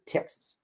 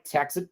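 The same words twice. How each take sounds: First: "Texas" squashed and soft, second vowel swallowed; Texan pronunciation. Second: Said in the usual way. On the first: Retold or imitated. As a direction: say "Texas" like a local, nearly "Tex's". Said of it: "the way to pronounce Texas is Texas". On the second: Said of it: "the way to pronounce Texas".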